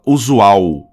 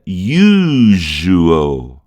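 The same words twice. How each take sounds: First: "usual" said oo-zoo-OW; Portuguese pronunciation. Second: "usual" stretched out as YOO-zhoo-ul; English pronunciation. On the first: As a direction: say "usual" the Brazilian way, ending in W. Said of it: "aqui a gente fala usual". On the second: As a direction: draw "usual" out slowly, English style, with a dark L. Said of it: "em inglês a gente pronuncia". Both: Shown as a demonstration.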